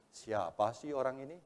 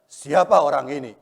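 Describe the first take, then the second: First: It is said in a curious tone. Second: It is said in an angry tone.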